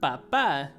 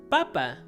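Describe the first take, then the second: First: The stress is on the last syllable. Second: The stress is on the first syllable. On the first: It means dad. "make sure you put the accent in the end" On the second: It means potato. "if you don't have the accent, it means potato"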